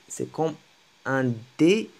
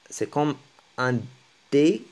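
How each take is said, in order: Both takes have the same delivery.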